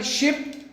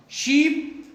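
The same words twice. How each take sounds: First: शिप with a short, clipped i; short vowel ship. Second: शीप with the ee held long; long vowel sheep. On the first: Teacher shows a short vowel to the class. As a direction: say शिप with a quick short i sound. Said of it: "short वावेल". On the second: Teacher shows a long vowel to the class. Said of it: "long वावेल". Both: Shown as a demonstration.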